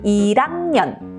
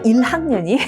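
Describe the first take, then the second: First: The l links over and the h is dropped. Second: The l links over with a slight h kept. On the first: The speaker calls it wrong. "이응 모음이 오는 것처럼 리을이 위로 붙어서" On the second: The speaker calls it right. "리을이 올라가지만 거기에 약간 거센 소리를 태워라"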